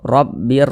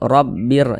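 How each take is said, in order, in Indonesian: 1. Bunyi n menyatu penuh dengan r. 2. Bunyi n menyatu penuh dengan r.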